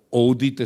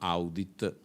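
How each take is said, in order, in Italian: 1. La parola si pronuncia come una parola inglese. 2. La parola si pronuncia come una parola latina. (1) "se volete sentirlo in inglese"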